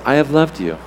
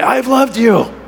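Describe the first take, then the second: First: It is said gently, like a father. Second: It is said angrily, like a spouse.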